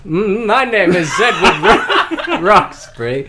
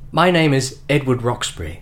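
First: It is read in a put-on villain voice. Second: It is read in the reader's natural voice.

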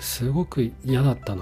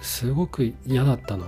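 First: It sounds sad. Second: It sounds sad.

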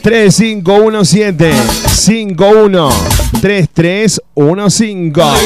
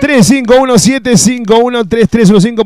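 First: The number is said slowly, in chunks. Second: The number is said at normal quick pace.

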